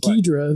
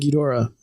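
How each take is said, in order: First: The name is said with two syllables. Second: The name is said with three syllables. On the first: This is the form used in the old American version. "they dropped the O. So it was Ghidra" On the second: This is the original form of the name. "the proper is King Ghidorah"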